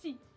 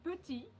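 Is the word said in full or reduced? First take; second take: reduced; full. First: The word is shortened with the first vowel dropped. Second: The word is said in full with both vowels. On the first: "you could say petit" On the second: "instead of saying petit"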